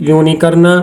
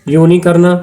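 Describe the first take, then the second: Both takes have the same delivery.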